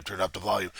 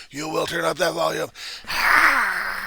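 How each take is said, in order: First: Said in the usual way. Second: Much higher, louder commanding yell; volume turned up. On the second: Shown as a demonstration. Bully turning up the volume on the Reverend, loud high yell. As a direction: crank it up and bellow.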